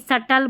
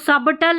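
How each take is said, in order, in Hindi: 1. बीच में 'b' की कोई आवाज़ सुनाई नहीं देती। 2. बीच में 'b' की आवाज़ सुनाई देती है। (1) "बी साइलेंट है" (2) "सबटल नहीं"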